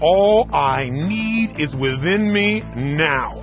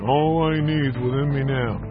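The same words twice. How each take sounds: First: It is said loudly with strong energy. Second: It is said flatly, without energy. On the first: It is felt and expressed with the whole body. The speaker calls it right. "And you're using your body, your face, everything" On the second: It is recited as a mere affirmation. The speaker calls it wrong. "This is not an affirmation"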